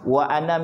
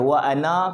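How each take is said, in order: First: The final vowel of ana is short. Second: The final vowel of ana is drawn out long. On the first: It means I. The speaker calls it right. "dia kena baca pendek" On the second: It means we. The speaker calls it wrong. "Dia tak boleh wa ana, kalau wa ana tu dia jadi nahnu dah"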